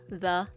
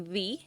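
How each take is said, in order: First: The vowel is a short, weak 'uh'. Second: The vowel is a long 'ee'. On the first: The speaker calls it right. "It has the schwa sound as well" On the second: The speaker calls it wrong. "we don't really say the. I think that's British English"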